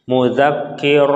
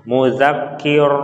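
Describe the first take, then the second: Both takes have the same delivery.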